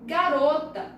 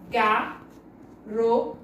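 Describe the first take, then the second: First: Said in the usual way. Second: "Garota" split slowly into ga, ro, ta; "Garota" with a clear pause after each syllable. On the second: Shown as a demonstration. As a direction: say "Garota" as three separate sounds: ga... ro... ta. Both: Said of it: "Olha o som que sai da boca".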